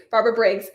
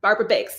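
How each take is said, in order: First: Briggs said with a clear r after the B; Briggs, careful br- at the start; corrected name. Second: Biggs said without the r, as B-I-G-G-S; wrong name. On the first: Host corrects herself to say the winner's name Briggs. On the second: Host misreads the winner's surname as Biggs. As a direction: Biggs with a plain short i and no r after the B. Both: Real, not acted. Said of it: "Briggs, I'm sorry".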